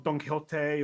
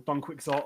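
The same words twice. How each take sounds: First: It is said with a Spain Spanish accent. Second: It is said with an English accent. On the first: "mainland Spanish" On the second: "or in the English way"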